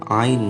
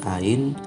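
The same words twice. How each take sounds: First: It begins with a tight throat sound. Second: It begins with a plain open vowel. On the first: The speaker calls it right. "sudah bisa membaca ain misalnya" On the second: The speaker calls it wrong. "bukan ain"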